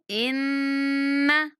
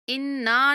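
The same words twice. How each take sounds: First: The double n is held with a nasal hum. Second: The double n is short without nasal hum. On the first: The speaker calls it right. "इन्ना गुन्ना करेंगे" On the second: The speaker calls it wrong. "इन्ना नहीं पढ़ना"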